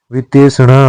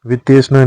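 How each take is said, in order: First: वितेषणा slowly, every syllable; correct form. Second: वितेषणा run together; wrong form. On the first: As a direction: draw out षणा in वितेषणा. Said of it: "होता है". (वितेषणा धीरे और स्पष्ट) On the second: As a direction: squeeze the षणा of वितेषणा. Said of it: "नहीं होता है". (वितेषणा का अशुद्ध उच्चारण) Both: Shown as a demonstration.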